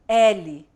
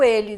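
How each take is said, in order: First: The first vowel is open. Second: The first vowel is closed. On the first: It names the letter L. "a pronúncia é diferente, é mais aberta" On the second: It is the pronoun meaning he. "a pronúncia é mais fechada"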